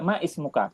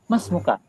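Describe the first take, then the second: First: An extra 'i' vowel is sounded before 'smuka'. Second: The words join with no vowel before 'smuka'. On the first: The speaker calls it wrong. "Kenapa Ustadz nggak dibaca Mais muka?" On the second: The speaker calls it right. "Karena di situ hamzahnya wasol. Tidak tidak akan dibaca ketika dia nyambung"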